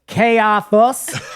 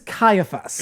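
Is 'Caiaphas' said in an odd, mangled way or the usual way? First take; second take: mangled; usual. First: The name is pronounced in an odd, mangled way. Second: The name is pronounced in the usual way. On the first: A character who cannot pronounce the name said it. The speaker calls it wrong. "they don't know how to pronounce them" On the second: This is how the name is actually said. The speaker calls it right. "The name is Caiaphas"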